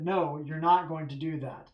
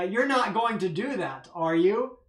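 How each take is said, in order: First: Said in the usual way. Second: A leading question that expects a no; question expecting no. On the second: Shown as a demonstration. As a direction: stress on "not" with a falling "that", then a rising "are you?". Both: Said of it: "My framing of the question implies that".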